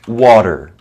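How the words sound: The middle T sounds soft, close to a D. "in American English, the T is kind of like between a T and a D"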